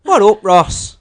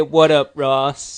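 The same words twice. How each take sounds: First: Hammed-up Irish accent, higher and louder; louder mock Irish with a laugh in it; bad Irish accent. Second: Put-on a lightly done Irish accent; a hint of Irish, loud and playful; bad Irish accent. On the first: Lee retrying the shout-out in mock Irish accent. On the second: Lee greeting a fan's brother in bad Irish accent. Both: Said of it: "That was a bad Irish accent".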